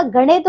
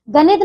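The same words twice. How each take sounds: First: गणित with a curled retroflex n. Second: गणित with a plain dental n. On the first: Teacher correcting pupils, गणित with retroflex n. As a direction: curl the tongue for ण in गणित. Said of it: "गणित होता है". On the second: Teacher showing wrong गणित with plain n. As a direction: say गणित as ga-nit. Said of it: "गणित नहीं होता". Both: Shown as a demonstration.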